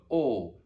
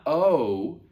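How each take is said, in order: First: Unmoving round O with no glide; pure Latin O. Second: Long drawn-out O sliding into oo; English gliding O. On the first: Teacher showing the correct Latin letter, pure steady O. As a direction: say "O" like aw, mouth held still. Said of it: "but O". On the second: Teacher showing what the Latin letter is not, gliding English O. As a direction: say "O" as the English letter, mouth moving. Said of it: "It's not O, but O". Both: Shown as a demonstration.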